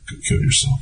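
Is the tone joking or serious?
serious. It is said in a grave, serious tone. The remark seems meant in earnest. "which would seemingly be more serious"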